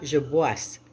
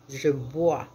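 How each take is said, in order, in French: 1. Le mot se termine par un son « s » audible. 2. Le mot se termine par une voyelle, sans son « s ».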